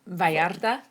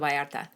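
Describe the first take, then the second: First: The R is strongly rolled. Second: The R is a single light tap. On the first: The speaker calls it wrong. "it's not a rolled R like I just did" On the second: The speaker calls it right. "just Puerto Vallarta"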